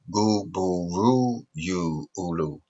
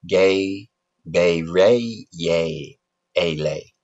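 First: Every syllable uses the vowel oo. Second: Every syllable uses the vowel ay. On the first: "You want to pronounce it with a oo?" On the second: "You want to pronounce it A?"

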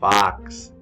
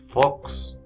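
First: The vowel sounds like an open 'ah'. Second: The vowel sounds like a rounded 'oh'. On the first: The speaker calls it right. "es fax. Tiene el sonido de la A" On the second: The speaker calls it wrong. "No es fox"

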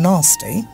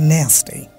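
First: It is said in a British accent. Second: It is said in an American accent. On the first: "Eta British hocche na nasty" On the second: "American hocche nasty"

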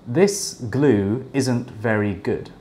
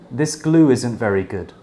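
First: The words are separate, with no 'w' sound between 'glue' and 'isn't'. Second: The words are linked, with a 'w' sound between 'glue' and 'isn't'. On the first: "when I don't connect the words" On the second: "with connected speech"

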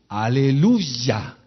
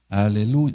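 First: It is said freshly, with lively energy. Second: It is said wearily, with low energy. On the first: The praise is heartfelt. The speaker calls it right. "Fresco tiene que salir de mi boca el aleluya" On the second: The praise is given out of obligation. The speaker calls it wrong. "aunque esté cansado, con aleluya"

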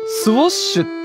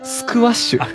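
First: It is said with no k sound after s. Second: It is said with a k sound after s. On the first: The speaker calls it wrong. "先ほど、スウォッシュって言ってましたが、" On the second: The speaker calls it right. "本当はね、"

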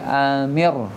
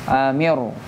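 No difference in how they are said.

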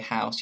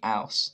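First: The h at the start is pronounced. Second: The h at the start is dropped, Cockney-style.

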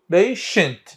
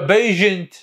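First: The middle consonant is a voiceless 'sh' sound. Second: The middle consonant is a voiced 'zh' sound. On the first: The speaker calls it right. "راح نختار الشيء" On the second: The speaker calls it wrong. "patient لو بيجنت، شو نقول؟"

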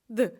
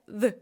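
The two takes are said the same way.

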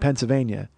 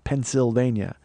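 First: It is said fast with the 'sil' syllable blurred. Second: It is said slowly with the 'sil' syllable clear. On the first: The speaker calls it wrong. "I'm saying it too quickly" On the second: The speaker calls it right. "the Sill"

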